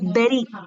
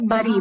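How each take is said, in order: First: The first vowel sounds like E. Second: The first vowel sounds like U. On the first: The speaker calls it right. "this is pronounced like E" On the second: The speaker calls it wrong. "we say bury because you have you"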